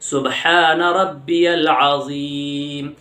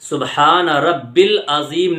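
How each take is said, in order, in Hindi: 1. यह 'rabbiyal' की तरह बोला जाता है, य की आवाज़ के साथ। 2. यह 'rabbil' की तरह बोला जाता है, य की आवाज़ नहीं। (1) "यल बोलना है" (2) "सुबहान रब्बिल अज़ीम नहीं है"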